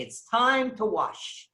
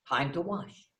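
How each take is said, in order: First: Slow, drawn-out announcer call; formal announcement. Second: Said in the usual way. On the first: Retold or imitated. Host announcing ritual washing to the guests, slow and formal. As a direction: proclaim it to the whole room. Announcement echoed flatly after.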